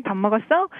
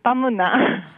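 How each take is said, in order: First: Seoul accent. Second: Quick Busan-accent question in her usual pitch. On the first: Busan local giving Seoul speech a try, Seoul accent. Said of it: "let me give it a try". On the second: Local answering Seoul version with her own, Busan accent. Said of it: "But we say". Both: Shown as a demonstration.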